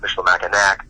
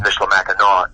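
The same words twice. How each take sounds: First: The final c sound is pronounced. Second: The final c sound is silent. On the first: The speaker calls it wrong. "not Michilimackinac" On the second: The speaker calls it right. "the consonant is silent... it's Michilimackinac"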